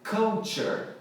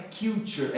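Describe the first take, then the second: First: Culture drawn out slowly as KUL-cher; correct culture pronunciation. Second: Culture said as KIL-cher or KYUL-cher; wrong culture pronunciation. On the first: Teacher correcting a common error, culture as KUL-cher. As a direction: open the first vowel of culture, KUL. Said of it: "é culture". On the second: Teacher showing what not to say, culture as KYUL-cher. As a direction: give culture a mistaken first vowel, KYUL. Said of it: "Não é culture". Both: Shown as a demonstration.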